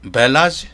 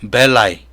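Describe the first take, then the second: First: The word ends with a 'ji' sound. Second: The word ends with a glide 'i' sound. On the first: The speaker calls it wrong. "벨라지, 베보지 하면 안 됩니다" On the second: The speaker calls it right. "이건 Y처럼 발음한다 그랬죠"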